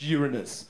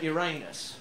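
First: Uranus said as "YUR-uh-nus"; corrected pronunciation. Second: Uranus said as "your-AY-nus"; rude pronunciation. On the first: Planet namer correcting the objector, Uranus said as "YOOR-uh-nus". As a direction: stress the first syllable of Uranus, weak middle. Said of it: "actually, it's pronounced Uranus". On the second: Objector at the naming meeting, Uranus said as "your-anus". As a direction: stress the middle of Uranus, sounding like "anus". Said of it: "it's pronounced Uranus". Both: Acted.

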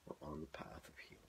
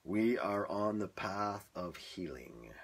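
First: Soft unvoiced whisper; whispered take. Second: Slow, drawn-out line; slow spoken take. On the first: Retrying the healing line as a whisper. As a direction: whisper it gently. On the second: Trying a healing line for his viewers. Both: Shown as a demonstration.

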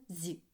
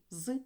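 First: "зі" with a palatalized з; short soft "зі", like зь. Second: "з" as a hard consonant, like зи; short isolated hard "з". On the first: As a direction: sound out "зі" softened, tongue raised. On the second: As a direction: sound out "з" unsoftened. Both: Shown as a demonstration. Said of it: "Тверді та м'які приголосні".

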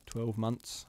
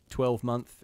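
First: "months" said as "munce"; phonetic dialect pronunciation. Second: Said in the usual way. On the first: Shown as a demonstration. Demonstrating the author's spelling, "months" pronounced "munce". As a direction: end "months" on "unce", dropping the th. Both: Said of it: "is spelled twelve M U N C E".

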